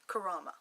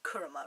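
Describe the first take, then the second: First: The second vowel is an 'a' sound. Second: The second vowel is an 'u' sound. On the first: The speaker calls it wrong. "they pronounce Kuruma's name as Kurama" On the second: The speaker calls it right. "you say it Kuruma"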